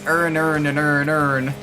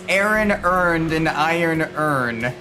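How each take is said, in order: First: The words are said fast and run together. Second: The words are said at normal speed, kept apart.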